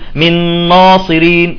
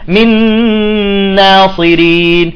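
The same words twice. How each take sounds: First: The vowel after the n sounds heavy and full. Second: The vowel after the n sounds light and thin. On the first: The speaker calls it wrong. "بعضهم يقول من ناصرين" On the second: The speaker calls it right. "الألف يجب أن تكون مرققة هي والنون"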